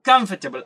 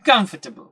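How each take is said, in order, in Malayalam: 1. നടുവിലെ അക്ഷരം ഞെരുങ്ങി ഒഴിവാകുന്നു. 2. നടുവിലെ അക്ഷരം ഞെരുങ്ങി ഒഴിവാകുന്നു.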